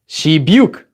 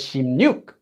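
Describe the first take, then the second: First: The middle sounds like 'b' followed by 'y'. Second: The middle sounds like nasal 'mn' followed by 'y'. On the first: The speaker calls it wrong. "normally if we just use our regular sound change rules, this would be pronounced as shibyuk" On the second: The speaker calls it right. "It's actually pronounced as shimnyuk"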